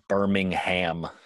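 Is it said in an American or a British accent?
American. It is said in an American accent.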